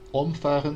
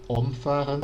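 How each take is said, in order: First: The stress is on the first syllable. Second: The same.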